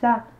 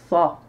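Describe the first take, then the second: First: The s is plain and light. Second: The s is emphatic and heavy. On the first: The speaker calls it wrong. "j'ai pas dit ça" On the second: The speaker calls it right. "Sa, c'est la lettre sad"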